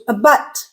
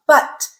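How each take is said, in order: First: A but with a weak, short a; unstressed first vowel. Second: But with a full, stressed vowel; stressed longer vowel. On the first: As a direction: slip quickly over the a in a but. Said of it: "the unstressed sound". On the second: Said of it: "more stress. It's a longer sound". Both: Shown as a demonstration.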